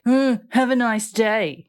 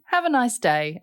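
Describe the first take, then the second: First: Huffy, drawn-out mock snub; with attitude. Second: Said in the usual way. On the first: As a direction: huff first, then stretch it out with attitude. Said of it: "You probably said it like".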